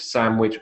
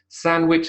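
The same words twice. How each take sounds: First: An m sound links the two syllables. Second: An n sound links the two syllables. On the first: "you have a M" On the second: "you have a N"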